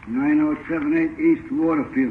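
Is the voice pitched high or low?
low. The voice is at a normal, lower pitch. "that doesn't sound like his voice"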